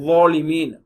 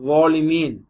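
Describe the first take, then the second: Both takes have the same delivery.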